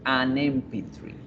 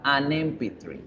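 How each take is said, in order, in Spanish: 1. Un sonido n une el artículo con 'M'. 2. Un sonido n une el artículo con 'M'.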